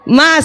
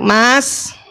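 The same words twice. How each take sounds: First: The call is pitched noticeably higher. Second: The call is sweet at a normal pitch. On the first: The wife is getting impatient. "panggilan kedua suaranya naik setengah oktav" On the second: The wife is still calm and gentle. "Yang pertama masih cantik"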